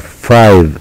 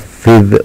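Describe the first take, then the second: First: The vowel is long, like 'eye'. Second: The vowel is short, as in 'fiv'. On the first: The speaker calls it right. "وإنما فايف" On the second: The speaker calls it wrong. "لا ننطقها فيف"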